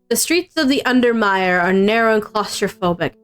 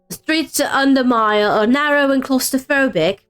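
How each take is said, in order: First: It is read in the speaker's normal voice. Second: It is read in a put-on old English accent.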